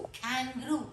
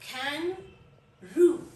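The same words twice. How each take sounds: First: Said in the usual way. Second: "kangaroo" very slow, kang, then a gap, roo; split into syllables. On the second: Shown as a demonstration. Teacher divides a long word, "kangaroo" slowly in two parts. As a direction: stretch "kangaroo" into two separate beats. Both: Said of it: "दो syllables हैं".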